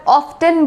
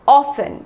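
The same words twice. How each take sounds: First: Often as OFF-ten; t sounded. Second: Often as OFF-en; silent t. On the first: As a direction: pronounce the t in often. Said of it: "कई बार often बोलते हैं". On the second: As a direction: drop the t in often. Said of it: "यहाँ पे टी silent रहेगा". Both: Shown as a demonstration.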